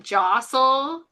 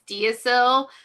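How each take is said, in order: First: It is said like the word jostle. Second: It is said as spelled, dee-oh-sil. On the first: The speaker calls it right. "but it's really jostle" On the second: The speaker calls it wrong. "that word that looks like it's Deosil"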